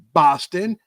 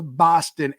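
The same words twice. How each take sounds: First: Lightly put-on Boston accent; Bostonian accent. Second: Said in the usual way. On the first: Shown as a demonstration. Host showing off his best Bostonian accent to listeners. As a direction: attempt a Bostonian accent on the city's name. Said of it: "that's my best Bostonian, uh, accent". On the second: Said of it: "that's my best Bostonian".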